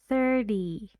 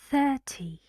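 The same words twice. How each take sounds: First: The middle t is a quick d-like flap. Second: The middle t is a clear t sound. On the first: "Only in American English we say thirty, thirty, a very fast d instead of t" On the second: "British English here is different. We say t"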